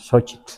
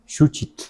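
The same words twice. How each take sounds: First: Xochitl said with an o, sho-chit; Huasteca pronunciation. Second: Xuchitl said with a u, shu-chit; Milpa Alta pronunciation. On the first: Teacher shows how the Huasteca says Xochitl, Xochitl with o. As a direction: Xochitl the Huasteca way, o in the first syllable. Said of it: "en la Huasteca decimos Xochitl". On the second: Teacher shows how some in Milpa Alta say it, Xuchitl with u. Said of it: "algunos dicen Xuchitl". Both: Shown as a demonstration.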